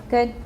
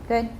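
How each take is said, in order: Both takes have the same delivery.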